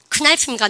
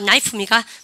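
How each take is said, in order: First: The word begins with a pronounced K sound. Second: The word begins with a silent K sound. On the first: The speaker calls it wrong. "K 크나이프입니까?" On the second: The speaker calls it right. "나이프 그죠?"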